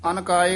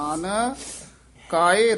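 First: The two words are run together without a break. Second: There is a slight break after the first word. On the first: The speaker calls it wrong. "ਆਮ ਕਈ ਨਾ ਅਨਕਾਏ ਇਕੱਠਾ ਹੀ ਕਹਿ ਜਾਂਦੇ ਹਨ" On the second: The speaker calls it right. "ਆਨ ਇੱਥੇ ਯਮਕ ਲਾ ਦੇਣੀ ਹੈ"

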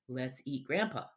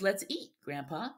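First: There is no pause after 'eat'. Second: There is a pause after 'eat'. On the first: The speaker proposes eating Grandpa. "But the second sentence just says" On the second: The speaker invites Grandpa to eat. "The first one says"

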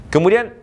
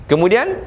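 The two takes are said the same way.

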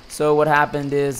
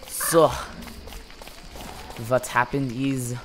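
First: It is said without a German accent. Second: It is said with a German accent.

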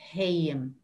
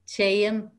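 First: The word begins with an H sound. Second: The word begins with a T sound. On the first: "the T sound can change to this H sound" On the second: "the T sound"

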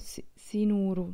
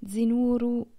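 First: The word begins with an S sound. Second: The word begins with a Z sound. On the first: The speaker calls it wrong. "cantano Sinuru, cioè sembra una S" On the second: The speaker calls it right. "invece di dire Zinuru"

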